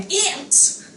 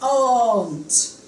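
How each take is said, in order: First: It has a short vowel, like ant. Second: It has a long, open vowel. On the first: "American pronunciation, my mother's sister is my aunt" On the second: "if you want to pronounce in the English way, then just, just make it long"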